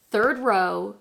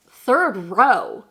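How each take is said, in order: First: Said in the usual way. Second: Loud, swooping disbelief; mock-shocked questioning exclamation; incredulous mom. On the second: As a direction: echo the news back in astonishment. Mom reacts to seat news.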